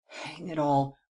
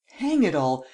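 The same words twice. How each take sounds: First: Restrained exasperation. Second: Louder, emphatic burst of frustration; exasperated outburst. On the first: Premier balking at demand for an arrest, restrained exasperation. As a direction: grumble it, holding back. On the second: Official balking at demand for an arrest, exasperated outburst. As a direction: punch out the exclamation. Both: A narrator's reading.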